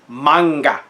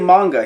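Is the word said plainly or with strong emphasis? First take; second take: emphatic; plain. First: The word is said with strong, dramatic emphasis. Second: The word is said plainly, without extra force. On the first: "when you say it that way with such emphasis" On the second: "he doesn't say manga"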